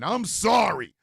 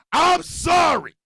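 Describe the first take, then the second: First: Said in the usual way. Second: Higher, louder and slow; shouted fake apology. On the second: Real, not acted. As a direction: bellow the apology, not sorry at all.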